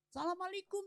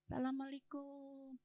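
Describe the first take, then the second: First: The greeting is said loudly and boldly. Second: The greeting is said quietly and timidly. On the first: The speaker wants to be heard inside. The speaker calls it right. "saya kenceng-kencengin aja" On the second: The speaker is too afraid to be heard. The speaker calls it wrong. "ketok pintu pelan"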